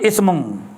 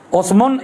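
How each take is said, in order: First: The word begins with an i vowel. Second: The word begins with an u vowel. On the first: "dan kasrahnya hamzah" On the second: "dhammahkan hamzah jadi usmum lah"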